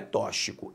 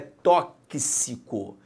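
First: The x is said as one single sound. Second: The x is said as the two sounds ks. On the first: The speaker calls it wrong. "não é tóxico" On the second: The speaker calls it right. "a letra X aqui forma o conjunto K S"

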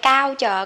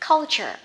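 First: The first syllable has no L sound. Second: The first syllable ends with an L sound. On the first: The speaker calls it wrong. "hay cao chờ" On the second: The speaker calls it right. "Nó sẽ là chữ V ngược á, thêm chữ L cong vô culture"

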